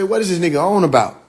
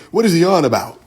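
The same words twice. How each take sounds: First: Said in the usual way. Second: Lightly mocking proper talker. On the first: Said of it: "That ain't how we talk". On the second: Teasing the audience about how somebody talks, lightly mock proper. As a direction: put on a touch of proper speech. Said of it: "Somebody talk like that".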